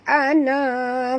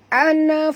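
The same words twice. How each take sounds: First: The final vowel is drawn out long. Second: The final vowel is kept short. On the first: The speaker calls it wrong. "jangan baca ana fattaqun" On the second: The speaker calls it right. "kita kena baca pendek"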